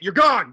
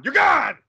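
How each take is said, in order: First: Raised, louder dismissal; angry dismissal. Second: Very high, loud outburst; escalated angry dismissal. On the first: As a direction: throw him out, firmly and loudly. Throwing the clown out. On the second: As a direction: yell him out of the room at the top of the voice. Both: Acted.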